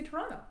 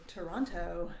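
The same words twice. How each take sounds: First: It is said the local Southern Ontario way. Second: It is said the way outsiders say it.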